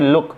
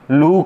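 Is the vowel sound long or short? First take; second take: short; long. First: The vowel is a short oo sound. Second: The vowel is a long oo sound. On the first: The speaker calls it right. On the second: The speaker calls it wrong.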